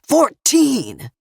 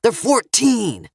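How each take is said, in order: First: High, louder repeat of "Fourteen!"; "Fourteen!" thrown out higher and louder; louder yell. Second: Slow, raised, pleading yell; stressed THEY'RE, slowed. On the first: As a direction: push the word up, desperate. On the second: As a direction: shout the age up at the gunman. Father pleads for his kids. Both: A narrator's reading.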